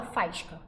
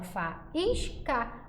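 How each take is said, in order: First: "faísca" run together as "FAIS-ca", stressed AI diphthong; pronúncia errada, ditongo. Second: "faísca" slowly broken into fa-ÍS-ca; pronúncia correta, hiato. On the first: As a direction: say "faísca" in two syllables, fais-ca. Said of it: "a gente não fala faísca". ("faísca" com ditongo, fais-ca) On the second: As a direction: say "faísca" syllable by syllable, full stressed I. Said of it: "A gente fala faísca". ("faísca" devagar, fa-ís-ca, com hiato) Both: Shown as a demonstration.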